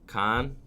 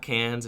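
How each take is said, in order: First: The name sounds like 'con', without the s. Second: The name sounds like English 'cans'. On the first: The speaker calls it right. "It's pronounced like con in French" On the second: The speaker calls it wrong. "Is it not cans?"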